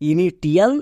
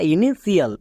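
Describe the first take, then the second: First: The middle is said with a t sound: ti-al. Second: The middle is said with sh plus extra syllable. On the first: "একে অনেকে ভুল করে উচ্চারণ করে" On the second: "একে অনেকে ভুল করে উচ্চারণ করে"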